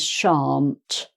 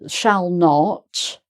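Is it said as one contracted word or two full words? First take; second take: contracted; two words. First: It is one contracted word with a long vowel. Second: It is said as two full words.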